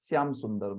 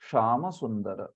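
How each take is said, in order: First: The name begins with an 's' sound. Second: The name begins with a 'sh' sound. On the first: The speaker calls it wrong. "श को वो स ही बोल देंगे" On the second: The speaker calls it right. "ऐसे बोलना चाहिए"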